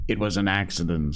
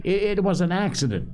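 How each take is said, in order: First: Quick, stubborn assertion at normal pitch. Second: High, fast, stammered insistence; shrill. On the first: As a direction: insist briskly, without raising the voice. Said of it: "said Piggy stubbornly". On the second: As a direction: protest shrilly, tripping over the start. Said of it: "shrilled again". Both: A narrator's reading.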